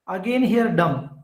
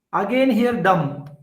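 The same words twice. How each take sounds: The two takes are said the same way.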